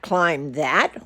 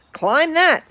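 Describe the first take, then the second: First: Gulping dismay. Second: "Climb that" barked high and loud by the bug, falling on "that"; bossy command. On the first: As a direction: echo the order back in disbelief. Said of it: "Horton gulped". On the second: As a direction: order him up the mountain, high and sharp. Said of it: "said the bug". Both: Acted.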